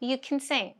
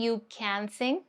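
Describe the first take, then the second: First: The word 'can' is said reduced. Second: The word 'can' is said in full. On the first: The speaker calls it right. "It gets reduced to kin" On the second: The speaker calls it wrong. "Instead of saying"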